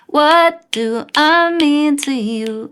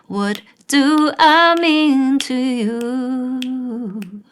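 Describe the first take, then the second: First: It is said fast. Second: It is said slowly.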